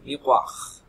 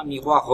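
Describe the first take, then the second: First: "miroir" with a clear final R sound; right version. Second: "miroir" said as the wrong form without the final R; wrong version. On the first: Teacher showing pupils the correct final R. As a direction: end "miroir" on a pronounced R. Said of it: "avec un R final". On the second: Teacher showing pupils the wrong pronunciation. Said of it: "ce n'est pas miroir". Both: Shown as a demonstration.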